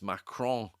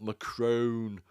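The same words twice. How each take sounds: First: The name is said with a French pronunciation. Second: The name is said with an English pronunciation. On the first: The speaker calls it right. "My French pronunciation is awful, but it's Macron" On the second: The speaker calls it wrong. "not Macron, as she says a hundred times"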